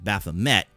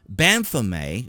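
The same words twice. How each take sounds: First: The name is pronounced the American way. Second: The name is pronounced the French way. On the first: "people here in this in the U S pronounce it Baphomet" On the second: "the French pronunciation"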